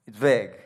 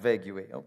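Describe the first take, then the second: First: The word is said as one syllable. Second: The word is drawn out into extra syllables. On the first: The speaker calls it right. "it's vague" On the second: The speaker calls it wrong. "not vague"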